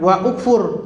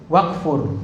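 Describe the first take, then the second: First: A glottal stop and vowel separate the two words. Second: The two words run together without a glottal stop. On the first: The speaker calls it wrong. "jangan wa ukfur" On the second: The speaker calls it right. "tapi langsung wakfur"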